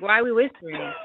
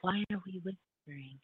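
First: Loud stage whisper, playful; whisper yelling. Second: Whispering. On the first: Retold or imitated. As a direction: hiss it loudly like a mock secret. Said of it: "I'm like". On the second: Real, not acted. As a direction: drop the voice to a near whisper.

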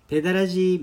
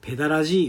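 First: Put-on ペダラジー in flat standard Tokyo accent; standard Japanese pronunciation. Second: ペダラジー with strong Kansai-dialect pitch; Kansai pronunciation. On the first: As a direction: say ペダラジー the Tokyo way, neutral pitch. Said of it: "なんか標準語みたいな". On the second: Retold or imitated. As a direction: say ペダラジー the Osaka way. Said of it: "めっちゃ関西弁".

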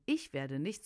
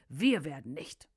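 First: "Ich" set apart as the contrasted word; stress on ICH. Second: "Wir" hit harder, the rest dropping back; stress on WIR. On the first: Narrator contrasts the devil's reply, stressing "Ich". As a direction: lean on "Ich", the singular, in a restrained voice. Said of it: "Es war nicht nur einfach ein". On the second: Narrator corrects to the demons' plural reply, stressing "Wir". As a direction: punch "Wir" to show there are many. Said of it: "sondern es war ein". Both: A narrator's reading.

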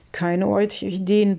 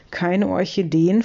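First: "Keine Orchideen" stated as confirmation, no questioning rise; "Keine Orchideen" as a settled statement; confirming statement. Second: Mildly baffled, tune rising at the end; a touch of bewilderment, rising; flabbergasted question. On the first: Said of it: "bestätige ich". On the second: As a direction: ask it in puzzled disbelief. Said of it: "fragt Herr Blitzblank verdattert". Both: A narrator's reading.

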